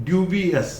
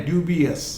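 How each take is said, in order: Both takes have the same delivery.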